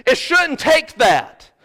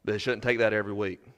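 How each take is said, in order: First: Shouldn't pressed hard, loud and slow, falling at the end; preacher hammering shouldn't, slow and loud; slow emphatic point. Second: Shouldn't said softly and fast, no push, flat fall; preacher murmuring shouldn't, soft and fast; quiet quick aside. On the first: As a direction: lean on shouldn't and drag the line out. Sermon climax, slow emphasis. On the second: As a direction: throw it away softly and quickly. Quiet reflective close. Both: Acted.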